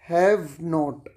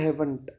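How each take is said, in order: First: It is said as two full words. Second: It is said as one contracted word. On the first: "क्या लग जाएगा? हैव नॉट।" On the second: "इसी को हम short में बोलते हैं"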